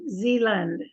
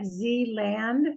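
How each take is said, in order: First: The last syllable is reduced to a 'lund' sound. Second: The last syllable has a full 'land' sound. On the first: "we're lazy and we say Zealand, almost if it's L U N D" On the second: "even though it looks like Zealand"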